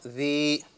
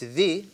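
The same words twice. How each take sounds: First: The vowel after dh is stretched long. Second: The vowel after dh is short. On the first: The speaker calls it wrong. "is not the" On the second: The speaker calls it right. "dhal with the kasra, it's the"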